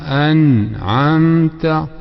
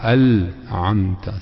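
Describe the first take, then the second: First: The consonant before 'amta' is an n sound. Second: The consonant before 'amta' is an l sound. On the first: The speaker calls it right. "c'est un noun" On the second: The speaker calls it wrong. "et non pas un lam"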